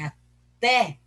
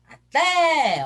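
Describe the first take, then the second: First: Said in the usual way. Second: TÉ in "até" called out long, high and loud; stress on TÉ. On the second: Shown as a demonstration. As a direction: stretch and belt the last syllable of "até". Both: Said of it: "o té é forte".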